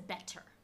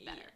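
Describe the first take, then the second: First: The middle t is crisp and fully released. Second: The middle t is a soft quick flap. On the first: The speaker calls it wrong. "no one says better" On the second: The speaker calls it right. "People say better"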